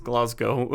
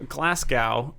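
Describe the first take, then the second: First: Glasgow ending in "go", "GLAHZ-go"; correct local pronunciation. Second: Glasgow ending to rhyme with "cow", stretched slowly; American pronunciation. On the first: Co-host corrects the American reading, local pronunciation. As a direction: say Glasgow low, with a final long o. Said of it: "it's actually pronounced Glasgow". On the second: Co-host mimics Americans misreading the city, American pronunciation. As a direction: say Glasgow slowly as "GLASS-gow". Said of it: "how Americans are always like". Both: Shown as a demonstration.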